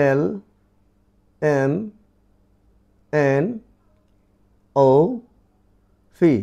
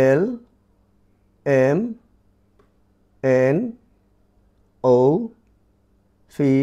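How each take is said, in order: No difference in how they are said.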